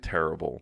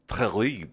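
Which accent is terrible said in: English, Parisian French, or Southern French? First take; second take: English; Southern French. First: It is said with an English pronunciation. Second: It is said with a southern French pronunciation. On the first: "like in English, we would say terrible" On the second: "in the south of France, they would say terrible"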